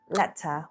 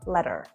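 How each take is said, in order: First: The middle sound is a clear t. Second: The middle sound is a quick d.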